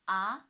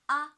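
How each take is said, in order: First: The pitch rises from mid to high. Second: The pitch stays high and level. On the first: "the second tone from three to five" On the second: "The first one on the five"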